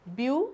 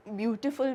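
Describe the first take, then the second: First: beautiful broken into view, टी, फुल with long pauses; syllable by syllable. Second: Said in the usual way. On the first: Shown as a demonstration. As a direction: count out beautiful as three separate syllables. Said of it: "तीन syllables हैं". (Beautiful को रुक-रुक कर, तीन हिस्सों में) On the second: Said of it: "कितने हैं".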